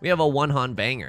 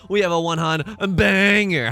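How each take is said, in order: First: It is said with only faint sarcasm. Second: It is said with heavy, obvious sarcasm. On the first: "you saying it didn't sound sarcastic?" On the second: "How's that for sarcasm?"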